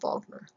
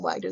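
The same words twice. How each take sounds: First: Wagner starts with a German V sound. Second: Wagner starts with an English W sound.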